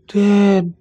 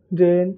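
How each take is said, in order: First: The word is said loudly and forcefully. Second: The word is said softly and quietly. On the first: "suaranya kencang" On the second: "yang tadinya pelan"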